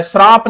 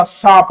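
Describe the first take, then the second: First: श्राप with an r after the first consonant; wrong form श्राप. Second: साप with no r, straight into long aa; correct form साप. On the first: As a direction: say श्राप with a clear shr cluster. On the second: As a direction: say साप without the r. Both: Shown as a demonstration. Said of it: "श्राप नहीं होता".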